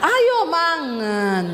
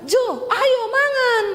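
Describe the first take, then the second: First: "ayo mangan" starts high, slides slowly down; high drawn-out call that sinks at the end; slipped Sulawesi tone. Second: High, drawn-out summons that sounds angry; piercing come-and-eat shout, unintentionally cross; Sulawesi high-toned call. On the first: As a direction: attempt Javanese falling tone after a high start. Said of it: "tiap hari belajar tapi masih keceplosan". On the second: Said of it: "Tapi nadamu tuh nesu". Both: Retold or imitated.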